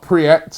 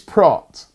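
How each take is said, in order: First: The vowel sounds like ee followed by e. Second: The vowel sounds like the a in bra. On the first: The speaker calls it wrong. "not Priet, as I've been saying" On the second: The speaker calls it right. "pronounced Pratt, like a A in bra"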